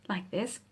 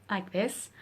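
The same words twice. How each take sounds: The two takes are said the same way.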